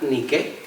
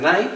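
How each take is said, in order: First: It is said like the original Greek word. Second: It is said like the English brand name. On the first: This is the original word meaning victory. "la palabra griega Nike" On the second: This is the common brand pronunciation. "Todo el mundo pronuncia Nike"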